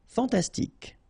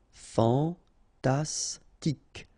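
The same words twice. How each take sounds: First: Said in the usual way. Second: Very slow "Fantastique", fan-tas-tique; syllable by syllable. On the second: Shown as a demonstration. French teacher modelling for learners, "Fantastique" slowly syllable by syllable. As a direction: pause between each syllable of "Fantastique".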